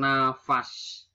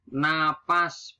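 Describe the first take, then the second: First: "nafas" with an f, slowly; nonstandard pronunciation. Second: "Napas" with a p, slowly; standard pronunciation. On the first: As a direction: say na-fas for "nafas". (ucapkan "nafas" dengan f) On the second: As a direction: say na-pas for "Napas". (ucapkan "Napas" dengan p) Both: Shown as a demonstration. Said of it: "bukan nafas".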